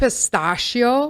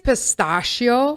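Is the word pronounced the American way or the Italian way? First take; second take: American; American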